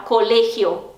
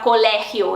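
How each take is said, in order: First: Colegio with a closed "ay"-like e. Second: Colegio with an open "eh" in the middle. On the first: Teacher showing learners Spanish colegio, closed e. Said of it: "ele é mais fechado normalmente". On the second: Teacher showing learners what to avoid, colegio with open e. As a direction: say colegio with the wrong, wide-open e. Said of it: "eles não vão falar colegio". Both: Shown as a demonstration.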